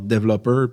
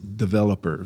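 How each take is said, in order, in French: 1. Il est prononcé avec un accent français. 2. Il est prononcé avec un accent anglais. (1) "avec mon accent franco, je disais genre developer" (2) "mais c'est developer"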